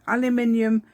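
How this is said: It is said with a British pronunciation. "in the U K"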